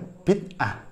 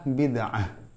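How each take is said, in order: First: The middle consonant is a glottal stop. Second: The middle consonant is a throaty ain sound. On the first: "dibacanya ya bid'ah" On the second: "ain dibaca hamzah"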